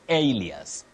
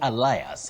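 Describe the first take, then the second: First: It sounds like AY-lee-us. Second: It sounds like ee-LIE-us. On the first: The speaker calls it right. "you say alias" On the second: The speaker calls it wrong. "you don't say Elias"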